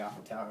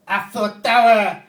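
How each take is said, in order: First: Said in the usual way. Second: Put-on very loud, high, drawn-out French-accented yell; mock French yell. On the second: French guys saying Eiffel Tower, mock French yelling. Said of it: "they yell it every time they say it".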